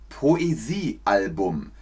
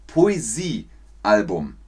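No difference in how they are said.

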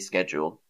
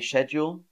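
First: It is said the American-style way. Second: It is said the older British way. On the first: This is the newer form younger speakers use. "younger British people might say schedule" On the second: This is the traditional form older speakers use. "Older British people might say schedule"

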